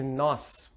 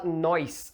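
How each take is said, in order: First: The vowel goes straight into the final s. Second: An i-glide is added before the final s. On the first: This is the standard form. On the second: This is the colloquial form.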